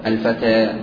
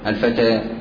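First: The vowel after t leans from a toward i. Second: The vowel after t leans from a toward i.

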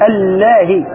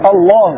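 First: The L sound is thin and light. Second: The L sound is heavy and full. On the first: "اللام في الأولى كانت مرققة" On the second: "وفي الثانية"

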